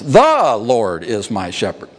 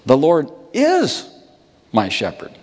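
First: The word "The" carries the stress. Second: The word "is" carries the stress. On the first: "the first word of the psalm doesn't work very well to emphasize" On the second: "And what about is?"

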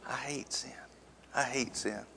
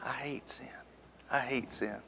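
First: It is muttered quietly under the breath. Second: The same.

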